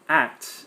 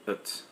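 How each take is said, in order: First: The word has a full vowel sound. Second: The word has a reduced schwa vowel.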